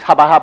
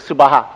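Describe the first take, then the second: First: The first syllable is a full 'sa' sound. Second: The first syllable is a short 'seu' sound. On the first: This is how people usually say it. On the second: This is the original form of the word.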